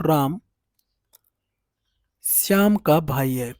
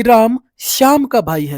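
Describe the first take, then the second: First: Shyam हल्का ज़ोर देकर, धीमे बोलें; "श्याम" पर ज़ोर, पूरा वाक्य धीरे; stress on Shyam. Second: Said in the usual way. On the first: Shown as a demonstration. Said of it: "मैं श्याम के पे जोर देना चाहता हूं". (श्याम शब्द पर बल देकर धीमा उच्चारण) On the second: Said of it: "अगर हम किसी अक्षर पर जोर दे रहे हैं".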